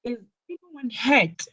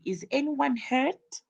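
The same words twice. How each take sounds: First: Slightly high, worried "Is anyone hurt?" falling at the end; worried question. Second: "Is anyone hurt?" higher with a rise on "anyone"; worried question. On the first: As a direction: ask it like you fear the worst. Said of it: "asked in a worried way". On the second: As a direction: ask anxiously, voice going up. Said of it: "in a worried way". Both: Shown as a demonstration.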